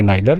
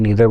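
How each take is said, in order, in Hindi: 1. पहला स्वर 'eye' जैसा बोला जाता है। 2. पहला स्वर 'ee' जैसा बोला जाता है। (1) "नीदर बोलें कि नाइदर, तो ये दोनों प्रोनाउंसिएशन करेक्ट" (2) "नीदर बोलें कि नाइदर, तो ये दोनों प्रोनाउंसिएशन करेक्ट"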